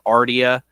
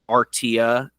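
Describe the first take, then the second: First: The name is said quickly and loosely. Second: The name is said slowly and crisply.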